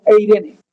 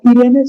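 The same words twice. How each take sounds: First: "Eirene" con E inicial antes de la I; pronunciación griega. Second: "Irene" con una I inicial simple; pronunciación a evitar. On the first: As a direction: di "Eirene" empezando por el diptongo ei. ("Eirene", ei-re-ne, sin reducirlo a Irene) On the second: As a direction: di "Irene" sin la E delante de la I. ("Irene", como el nombre español corriente) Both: Shown as a demonstration. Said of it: "No Irene, sino Eirene".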